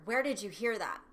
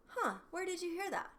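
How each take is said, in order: First: Louder, hit WHERE hard and drop; sharp accusing tone. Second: Much higher, light curious huh; curious, relaxed tone. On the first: Parent snapping at a child's question, accusing. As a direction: demand it like an alarmed parent. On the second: Parent gently curious about a child's question, relaxed. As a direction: ask it with easy interest. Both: Shown as a demonstration. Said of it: "is different than".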